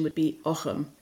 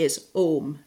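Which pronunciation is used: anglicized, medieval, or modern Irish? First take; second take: medieval; modern Irish. First: It uses the early medieval pronunciation. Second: It uses the modern Irish pronunciation. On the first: This is the form favoured by medievalists. "a sort of medieval pronunciation or early medieval pronunciation" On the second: This is the form most common in Ireland today. "The pronunciation that's most common in Ireland ... that's like the modern Irish pronunciation"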